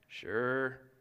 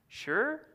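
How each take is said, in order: First: It is said with a begrudging, reluctant attitude. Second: It is said with a hesitant, questioning attitude. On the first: Reluctant agreement only because it is needed. "sure could be read in a begrudging if you need me to manner" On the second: Agreement, but with doubts about what it entails. "you can also take that sure to mean sure, but I have some questions about what it all entails"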